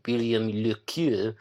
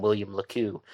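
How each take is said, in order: First: Put-on French pronunciation of the name; fake French accent. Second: Said in the usual way. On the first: Shown as a demonstration. Podcaster showing how he could say the author's name, fake French accent. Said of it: "do the fake French accent". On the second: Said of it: "so I'll just call him".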